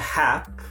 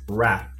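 First: The word begins with an H sound. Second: The word begins with an R sound. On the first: The speaker calls it wrong. "it's not hap" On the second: The speaker calls it right. "it's rap"

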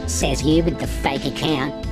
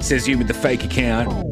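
First: It is said in an imitation of her voice. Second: It is read in the speaker's own voice.

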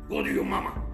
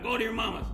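First: It is said in a deep, stern voice. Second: It is said in a normal speaking voice.

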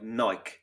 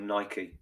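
First: Nike is said in a non-American way. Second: Nike is said in an American way.

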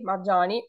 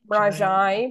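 First: It is said in another southern form, marjani. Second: It is said in the Campidanese form, mrajai. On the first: "in other southern areas is Marjani" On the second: "the word fox in my Sardinian Campidanese is mrajai"

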